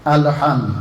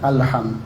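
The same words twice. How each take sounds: First: The L is bounced with a short echo. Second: The L is plain with no echo. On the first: The speaker calls it wrong. "al-lamnya itu di qalqalahnya" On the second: The speaker calls it right. "Padahal itu tidak ada qalqalah"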